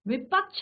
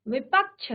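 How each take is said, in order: First: The word ends with a 'chh' sound. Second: The word ends with a 'chh' sound.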